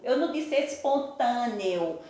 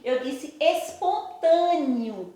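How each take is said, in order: First: Espontâneo ending in a clear e sound, not i. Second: Espontâneo said as espontânio, ending in an i sound. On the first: Teacher contrasting the wrong espontâneo with an E sound. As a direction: say espontâneo with the last vowel as E. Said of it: "não apareceu o sonzinho do E". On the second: Teacher showing the class espontâneo with an I sound. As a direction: say espontâneo with the last vowel as I. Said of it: "apareceu o sonzinho do I". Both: Shown as a demonstration.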